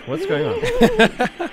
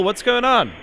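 First: Drawn-out high question. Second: Questioning. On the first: Pretend. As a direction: stretch "What's going on?" slowly, pitched very high and mock-wondering. Host repeats, drawn out high. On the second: Real, not acted. Checking on reporter at North Pole.

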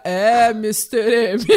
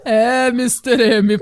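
First: Deep, slow announcer voice impression; a hint of a grave TV narrator; Cid Moreira. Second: Slow, deeper announcer voice impression; a hint of a grave TV narrator; Cid Moreira. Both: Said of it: "Daí aparece o Cid Moreira".

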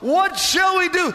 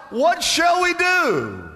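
First: High, loud anguished cry; desperate cry. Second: High, slow desperate plea; crying out. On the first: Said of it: "they cry out". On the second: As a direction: cry out for an answer. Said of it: "the people cried out". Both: Retold or imitated.

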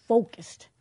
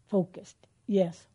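First: "focused" punched louder and higher; emphatic focused. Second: Said in the usual way. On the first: Shown as a demonstration. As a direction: land hard on "focused".

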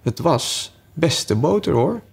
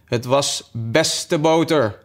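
First: Slow, high, rising insistence; repeated feeble excuse. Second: Slow, higher-pitched humble excuse; meek. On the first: March Hare with nothing better to say, slow lilting insistence. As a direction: draw it out and lift it at the end. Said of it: "op iets beters dan zijn eerste opmerking kwam die niet". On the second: March Hare answering the cross Hatter, meek and slow. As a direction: answer humbly, drawing it out slowly. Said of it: "antwoordde de Maartse haas deemoedig". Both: A narrator's reading.

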